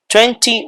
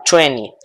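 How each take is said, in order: First: "Twenty" with a clear second T, "twen-tee"; T pronounced. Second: "twenty" said as "twenny"; silent second T. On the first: Teacher reads first option for students, full T. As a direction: sound both T's in "Twenty". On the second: Teacher reads second option for students, dropped T. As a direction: drop the second T in "twenty", "twen-ee". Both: Shown as a demonstration. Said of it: "Cualquiera de las dos pronunciaciones".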